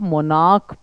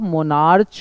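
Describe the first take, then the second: First: The word ends with a 'k' sound. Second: The word ends with a 'ch' sound. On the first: The speaker calls it right. "इसको आप मोनाक पढ़ते हैं" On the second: The speaker calls it wrong. "इसको आप मोनार्च नहीं पढ़ते"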